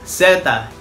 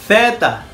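First: The word begins with an s sound. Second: The word begins with a th sound. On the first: "O pwede namang parang letter C lang o C" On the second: "TH yung pag-pronounce ng Z"

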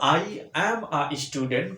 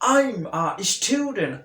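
First: I and am are said as two full words. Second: I and am merge into one short syllable. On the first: "এটা মূলত আই অ্যাম a student" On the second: "contracted ফর্মের জন্য তোমাকে অবশ্যই উচ্চারণ করতে হবে"

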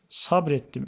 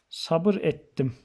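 First: The vowel after the b is left out. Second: The vowel after the b is pronounced. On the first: "Ünlü düşmesine gönderme"

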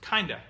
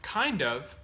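First: The words are reduced and run together. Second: The words are said fully and separately.

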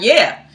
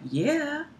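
First: It sounds firm and convinced. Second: It sounds hesitant and unconvinced. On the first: The speaker truly believes it. The speaker calls it right. "She wasn't like" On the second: The speaker does not truly believe it. The speaker calls it wrong. "that didn't sound convincing"

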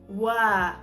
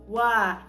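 Both takes have the same delivery.

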